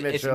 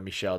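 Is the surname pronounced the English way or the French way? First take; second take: English; French. First: The name is said with an English pronunciation. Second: The name is said with a French pronunciation. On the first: The name is taken to be English. "I'm pretty confident on Mitchell" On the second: The name is taken to be of French origin. "If that's French and it should be, you know, Michelle"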